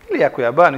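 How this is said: It is said as a question, rising at the end.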